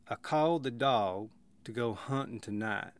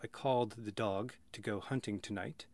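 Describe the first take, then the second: First: Emphasis comes from slow, lengthened vowels. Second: Emphasis comes from pitch and crisp consonants. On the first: "listen for the vowels carrying the meaning" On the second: "Instead of"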